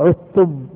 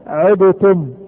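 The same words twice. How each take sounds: First: The d merges fully into the t. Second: The d is released with a bounce. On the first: The speaker calls it right. "عدتم ما في دال" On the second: The speaker calls it wrong. "لو كان في دال نقلقلها عدتم"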